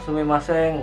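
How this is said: It is said with an Indonesian accent. "kalau kita bilang sumimasen"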